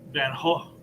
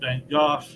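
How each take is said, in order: First: The name is said the Dutch way. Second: The name is said the British way.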